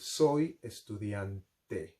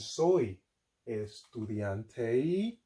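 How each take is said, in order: First: The vowels sound pure and unchanging. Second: The vowels sound like English vowels. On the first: The speaker calls it right. "we would like to say" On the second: The speaker calls it wrong. "instead of saying"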